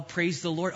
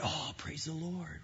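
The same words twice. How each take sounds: First: Said in the usual way. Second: Deutlich leiser, wie ein verhaltenes Echo; leise Antwort. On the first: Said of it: "Oh, I'm, I'm doing well". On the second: Retold or imitated. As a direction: das Lob leise und nur halb ernst zurückgeben.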